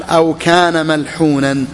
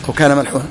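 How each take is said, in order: First: Reading the source text slowly and deliberately; slow text recital. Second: Said in the usual way. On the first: Shown as a demonstration. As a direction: recite the quoted text, drawn out. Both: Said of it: "قال".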